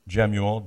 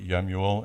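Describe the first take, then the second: First: The name begins with a J sound. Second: The name begins with a Y sound. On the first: "I'm going to use American pronunciation for now" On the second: "Jemuel is probably Yemuel"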